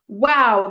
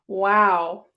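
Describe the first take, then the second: First: It sounds amazed and impressed. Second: It sounds flat and uninterested. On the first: The speaker is impressed by the thing. "that's amazing" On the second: The speaker does not care about the thing. "as in, I'm not interested"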